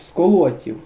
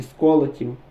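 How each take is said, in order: First: «сколотів» with stress on the middle syllable, ЛО; stress on second О. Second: «сколотів» with stress on the first syllable, СКО. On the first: («сколотів» з наголосом на другому складі) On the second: («сколотів» з наголосом на першому складі) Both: Shown as a demonstration. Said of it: "Не пам'ятаю, як правильно наголос".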